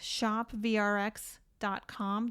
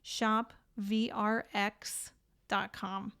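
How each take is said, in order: First: The address is said at normal speed. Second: The address is said more slowly.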